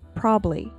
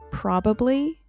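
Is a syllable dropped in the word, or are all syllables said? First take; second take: dropped; all said. First: One syllable of the word is dropped. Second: Every syllable of the word is pronounced. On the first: "and you say probably" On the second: "you have the word probably"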